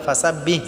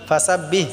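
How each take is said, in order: Both takes have the same delivery.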